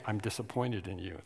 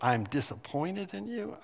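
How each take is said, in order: First: A hint of a stern father, hushed; quiet dad. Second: Rising, half-disbelieving repeat; incredulous echo. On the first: Dad scolding his little boy, hushed and disappointed. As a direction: say it low, like a let-down dad. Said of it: "He'd say". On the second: Retold or imitated. Boy echoing his dad's words, lightly incredulous. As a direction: toss the words back as a question. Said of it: "I just said".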